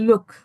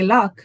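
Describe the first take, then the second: First: The vowel is rounded, like in 'book'. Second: The vowel is open, like in 'cup'. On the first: This is how northern people say it. "they say look" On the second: This is how the speaker's group says it. "when we say luck"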